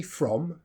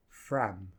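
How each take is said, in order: First: "from" with a clear full o; full vowel. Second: "from" reduced to "frum" with a schwa; short, low "from" with the vowel weakened; weak form. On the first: Teacher quoting the learner's version, full vowel. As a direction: say "from" in its strong form. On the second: Teacher modelling the reduced word, weak vowel. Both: Shown as a demonstration. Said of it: "I think you say from".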